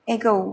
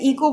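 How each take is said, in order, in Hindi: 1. शब्द 'e' स्वर से शुरू होता है। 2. शब्द 'ee' जैसे स्वर से शुरू होता है। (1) "अब की बार जब आप बोलेंगे तो ई को नहीं बोलेंगे" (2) "हम इसे इको बोलते हैं"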